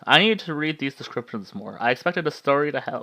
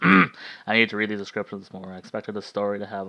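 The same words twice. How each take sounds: First: It is read in a voice not meant for Mikkel. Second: It is read in the voice meant for Mikkel.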